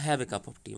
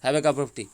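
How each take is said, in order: First: "Have a cup of tea" said at normal volume as a kind offer; gentle offer. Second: Loud, firm order to drink tea; commanding. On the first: Teacher showing the tea line as a friendly invitation. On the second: Teacher showing the tea line as a loud order. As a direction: bark "Have a cup of tea" as a firm command. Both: Shown as a demonstration. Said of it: "দুরকমভাবে কিন্তু সেন্সে ব্যবহার".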